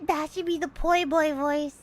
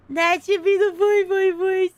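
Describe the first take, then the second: First: Said in the usual way. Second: Higher and louder goofy sidekick voice; poi boy voice. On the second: Pretend. Streamer tries out a goofy sidekick voice, louder. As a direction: try it out as the cartoon henchman.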